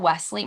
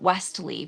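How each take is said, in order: First: The name is said without a T sound. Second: The name is said with a strong T sound. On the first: The speaker calls it right. "there is no T in his name" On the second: The speaker calls it wrong. "she would pronounce that T like ain't nobody's business"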